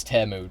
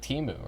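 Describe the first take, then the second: First: "Temu" said TEM-oo; corrected pronunciation. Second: "Timu" said TEE-moo; wrong pronunciation. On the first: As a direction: say "Temu" with an eh in the first syllable. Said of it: "Don't tell me it's Temu". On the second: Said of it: "why the fuck you pronouncing Timu". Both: Shown as a demonstration.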